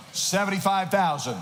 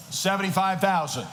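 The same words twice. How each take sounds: The two takes are said the same way.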